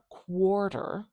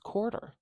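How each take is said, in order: First: It begins with a 'kw' sound. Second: It begins with a plain 'k' sound. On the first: The speaker calls it wrong. "It's not quarter" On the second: The speaker calls it right. "it's quarter. I'm not going to put a W after it"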